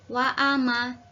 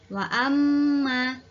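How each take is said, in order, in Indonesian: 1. Huruf m dibaca pendek tanpa dengung. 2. Huruf m dibaca rangkap dengan dengung yang panjang. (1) "tidak boleh dibaca wa ama" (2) "dibaca wa amma"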